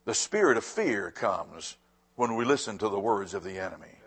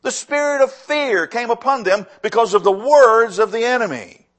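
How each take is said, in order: First: Much softer and lower, stress on spirit; soft repeat. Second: Loud, ringing first statement; forceful preaching. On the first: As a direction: drop to a hushed, weighty repeat. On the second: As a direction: proclaim it strongly to the congregation. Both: Shown as a demonstration. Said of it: "I'm gonna say that again".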